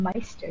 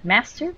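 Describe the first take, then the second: First: The first vowel sounds like 'my'. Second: The first vowel sounds like 'ma'. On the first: The speaker calls it right. "you just pronounce it with that my" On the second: The speaker calls it wrong. "no ma"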